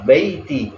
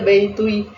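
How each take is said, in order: First: The word ends with a plain 'ti' sound. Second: The word ends with a 'u' before the final 'i'. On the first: The speaker calls it right. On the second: The speaker calls it wrong.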